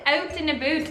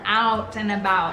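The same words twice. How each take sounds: First: It is said in a put-on Canadian accent. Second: It is said in an American accent.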